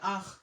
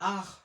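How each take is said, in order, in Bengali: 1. এটা ফরাসি উচ্চারণে বলা হয়, নীরব t, s সহ। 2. এটা ফরাসি উচ্চারণে বলা হয়, নীরব t, s সহ।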